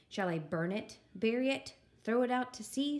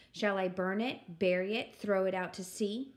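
First: Said in the usual way. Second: Said out with mild firmness; louder repeat. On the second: Acted. Eugenia relishing the sound of her words, slightly louder. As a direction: declare it a touch more boldly. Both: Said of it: "She said them louder".

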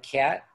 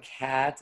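First: "cat" with a strong, nasal Chicago a; strong Chicago vowel. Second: Said in the usual way. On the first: Shown as a demonstration. Chicagoan demonstrating the accent, "cat" with a strong nasal a. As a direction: push the a in "cat" up into the nose. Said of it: "very strong, like". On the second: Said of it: "instead of, like".

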